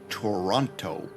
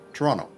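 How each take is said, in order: First: The second T is sounded hard and emphasized. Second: The second T is sounded softly, barely emphasized. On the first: The speaker calls it wrong. "you don't say Toronto. It's it's not that hard" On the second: The speaker calls it right. "I still pronounce the T. It's just not as it's not as emphasized"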